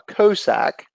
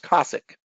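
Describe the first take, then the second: First: The word is given a French-style pronunciation. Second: The word is given an English-style pronunciation. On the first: "that does kind of look like a French word, and I had been pronouncing it" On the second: "according to uh, Keith, he says it's"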